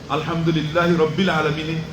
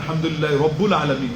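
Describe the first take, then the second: First: The vowel after rabb is an i sound. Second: The vowel after rabb is a u sound. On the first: The speaker calls it right. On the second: The speaker calls it wrong.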